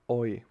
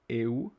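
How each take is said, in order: First: The vowels blend into one oy sound. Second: The two vowels are said separately as eh-oo. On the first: The speaker calls it right. "it will be pronounced like oi" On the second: The speaker calls it wrong. "not eu"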